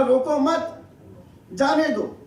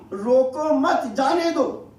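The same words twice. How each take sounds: First: "روکو مت" as one unit, long break, then "جانے دو"; pause after مت. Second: Slow "روکو", then "مت جانے دو" run together; pause after روکو. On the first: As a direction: break firmly after مت before saying جانے دو. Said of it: "جہاں مجھے وقف کرنا چاہیے تھا". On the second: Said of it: "غلط جگہ پر جملے کو روکا". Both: Shown as a demonstration.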